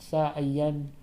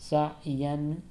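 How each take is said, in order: The two takes are said the same way.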